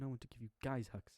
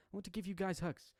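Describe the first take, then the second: First: Said in the usual way. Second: Put-on high little girl voice on hugs; child voice retake. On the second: Shown as a demonstration. Yuriki promising hugs, redone in child voice. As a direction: redo it as the small child. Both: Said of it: "Almost butchered that there".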